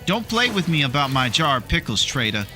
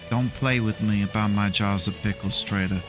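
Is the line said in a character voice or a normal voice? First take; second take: normal voice; character voice. First: It is said in his ordinary speaking voice. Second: It is said in a put-on character voice. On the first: The speaker calls it wrong. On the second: The speaker calls it right.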